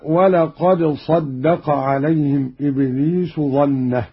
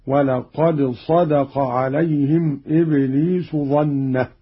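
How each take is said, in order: First: صدق as saddaqa; doubled dal. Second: صدق as sadaqa; single light dal in صدق; lightened dal. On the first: Teacher quotes the verse before the variant, صدق as saddaqa. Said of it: "بتخفيف الدال". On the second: Teacher shows Qalun's reading, صدق as sadaqa. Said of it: "بتخفيف الدال على عدم التضعيف". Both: Shown as a demonstration.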